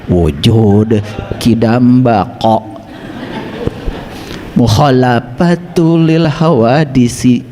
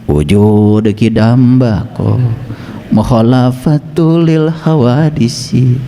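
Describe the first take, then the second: First: The consonants are articulated precisely and deliberately. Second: The consonants are articulated loosely and imprecisely. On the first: The speaker calls it right. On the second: The speaker calls it wrong.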